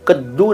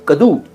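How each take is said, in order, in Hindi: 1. बीच की d ध्वनि लंबी और दोहरी है। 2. बीच की d ध्वनि छोटी और एक है। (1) "कद्दू नहीं था" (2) "कदू असल रूप था उसका"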